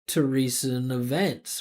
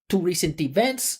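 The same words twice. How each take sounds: First: The unstressed vowels are reduced to schwa. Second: The unstressed vowels are said as full vowels. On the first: The speaker calls it right. "instead of" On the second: The speaker calls it wrong. "she's not using either of them"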